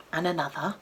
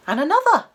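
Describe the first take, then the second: First: Soft, questioning lift at the end; hushed suspense. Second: Much higher and louder, falling at the end; startled escalation. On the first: Narrator counting a second thud from the cupboard, hushed suspense. First of two knocks, building suspense. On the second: Narrator as the thuds from the cupboard build, startled escalation. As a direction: hit the repeat with sudden alarm. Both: A narrator's reading.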